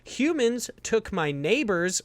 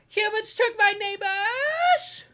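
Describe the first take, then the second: First: The title is said plainly, without exclamation. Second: The title is said loudly, like an exclamation. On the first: The speaker calls it wrong. "I said that wrong" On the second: The speaker calls it right. "Exclamation it's, point"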